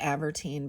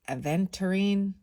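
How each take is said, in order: First: The word is said with three syllables. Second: The word is said with four syllables. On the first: The speaker calls it wrong. "I always call it Avertine" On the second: The speaker calls it right. "but it's Aventurine"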